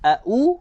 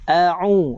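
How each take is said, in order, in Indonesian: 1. Suku kata kedua dimulai dengan hentian glotal. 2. Suku kata kedua dimulai dengan bunyi faringal. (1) "maksudnya kita baca dengan huruf hamzah" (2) "ain baris depan u"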